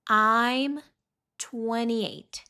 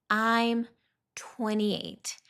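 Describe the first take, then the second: No difference in how they are said.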